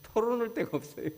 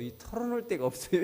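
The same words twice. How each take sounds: First: Mock wail, pitched way up; exaggerated whine. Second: Lightly voiced man pouting that he has nobody, raised pitch; mild mock lament about having no one to confide in; whiny complaining man. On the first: Pastor mimicking the lonely man's complaint, hammed-up high whine. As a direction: repeat 털어놓을 데가 없어요 much higher, hammed-up lament. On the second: Church member telling the pastor he has nobody, mock whine. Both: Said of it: "이렇게 얘기해요".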